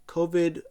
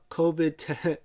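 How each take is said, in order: First: Covid said through a laugh. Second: Said in the usual way. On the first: Retold or imitated. Retelling the joke, covid said with a laugh. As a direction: laugh as you repeat covid. Quoting McAfee's covid line.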